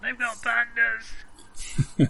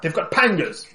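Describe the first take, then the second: First: Slow, high hammed-up yell; drawn-out mock alarm call; mock shout. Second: High urgent warning shout. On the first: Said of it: "muffled voice shouting something about pandas". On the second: Acted. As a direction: call it out in alarm. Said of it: "I will shout".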